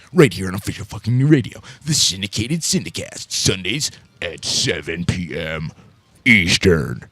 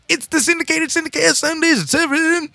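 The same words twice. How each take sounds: First: Deep announcer voice. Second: Squeaky high cartoon announcer; high silly voice. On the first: Acted. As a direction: drop it low like a trailer voice. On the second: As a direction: push it way up into a goofy squeal. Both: Radio promo with silly voices.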